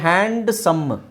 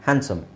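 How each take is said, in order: First: The d sound is pronounced, split into two parts. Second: The d sound is left out completely. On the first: The speaker calls it wrong. "ಹ್ಯಾಂಡ್ ಸಮ್ ಅಂತ ಹೇಳೋದ್ರ ಬದಲು" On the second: The speaker calls it right. "ಡಿ is not necessary"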